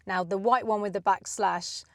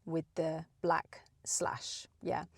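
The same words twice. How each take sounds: First: Said in the usual way. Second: Slow breathy whisper. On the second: Shown as a demonstration. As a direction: breathe the words out slowly, unvoiced.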